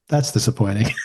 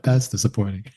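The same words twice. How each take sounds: First: Barely react, let it fall flat and dry; understated. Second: Quiet deadpan understatement, softer still; understated. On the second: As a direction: murmur it with dry restraint. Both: Retold or imitated. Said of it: "So understated".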